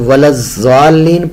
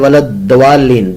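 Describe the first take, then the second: First: The middle consonant is said as a z sound. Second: The middle consonant is said as a d sound. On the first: "दोनों तरह से लफ्ज गलत है" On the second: "दाल को पढ़ना"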